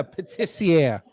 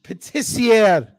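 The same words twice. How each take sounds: First: Patissiere slow, French vowels; mock French pronunciation; French word. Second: Patissiere slow, louder, French vowels; mock French pronunciation; French word. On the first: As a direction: demonstrate Patissiere slowly. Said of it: "Can you even say that word". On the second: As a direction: insist on Patissiere slowly. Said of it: "I said patissiere". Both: Shown as a demonstration.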